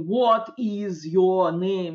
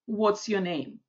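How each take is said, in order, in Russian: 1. Оба слова 'what is' произносятся отдельно. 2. 'What is' сжимается в один слог. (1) "никто так как робот не говорит" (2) "В разговорной речи у нас очень часто какие-то вещи так соединяются и сокращаются"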